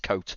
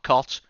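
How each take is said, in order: First: The vowel is long, as in coat. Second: The vowel is short, as in cot. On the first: The speaker calls it right. "it's coat" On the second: The speaker calls it wrong. "it's not cot"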